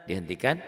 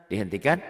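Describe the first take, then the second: The two takes are said the same way.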